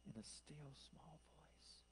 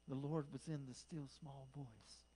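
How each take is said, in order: First: Hushed, slow whisper; still small voice. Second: Said in the usual way. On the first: Retold or imitated. Preacher telling how the Lord spoke to Elijah, whispered. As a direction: drop right down to a whisper.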